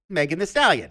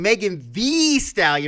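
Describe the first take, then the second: First: The name is said in a plain, ordinary way. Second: The name is said with strong, exaggerated emphasis. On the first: This is the normal way to say the name. "I thought the proper pronunciation was just" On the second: Perhaps this matches the spelling with two e's. "really hitting it"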